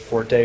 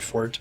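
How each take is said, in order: First: The word is said with two syllables. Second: The word is said with one syllable. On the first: This is the common but technically incorrect pronunciation. The speaker calls it wrong. "technically you're not supposed to pronounce it forte" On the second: This is the technically correct pronunciation. The speaker calls it right. "you're supposed to pronounce it fort"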